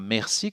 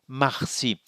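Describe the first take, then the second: First: The first vowel sounds like 'eh'. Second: The first vowel sounds like 'ah'. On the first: It is the Canadian French pronunciation. "nous ne le prononçons pas merci comme les Canadiens français" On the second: It is the Michif pronunciation. "nous le prononçons marci"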